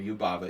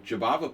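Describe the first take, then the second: First: The name is said with a European pronunciation. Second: The name is said with an English pronunciation.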